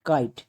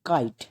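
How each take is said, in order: No difference in how they are said.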